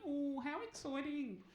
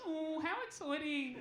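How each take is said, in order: First: Slow, flat feigned excitement; bored receptionist faking enthusiasm; fake excitement. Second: Slow, drawn-out feigned enthusiasm; a callback of the bored receptionist; echoed fake excitement. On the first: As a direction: drag it out as if you could not care less. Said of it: "feigning her excitement". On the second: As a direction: echo it distantly, deadpan.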